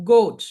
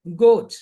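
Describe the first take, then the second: First: గోట్ said louder, clear hard g; teacher calling out గోట్; word demo. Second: గోట్ louder again with hard g; word demo repeated. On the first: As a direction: model గోట్ loudly for the class. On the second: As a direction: repeat గోట్ clearly and loudly. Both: Shown as a demonstration. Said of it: "ఈ గోట్ అనే పదం ఎలా వచ్చింది".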